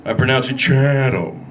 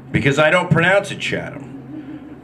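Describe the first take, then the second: First: A hint of a snob saying "Chatham"; posh pronunciation. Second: Said in the usual way. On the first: Shown as a demonstration. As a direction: say "Chatham" as "shat-um", snooty.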